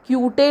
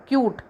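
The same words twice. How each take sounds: First: क्यूटे with the final E sounded; wrong extra syllable. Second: क्यूट as one syllable, ending on T; silent final E. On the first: Teacher shows the wrong reading, क्यूटे with final E voiced. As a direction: say क्यूटे in two syllables, ending in "tay". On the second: Teacher corrects the reading, क्यूट with final E silent. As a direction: stop क्यूट right at the T. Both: Shown as a demonstration. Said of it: "क्यूटे नहीं है वो".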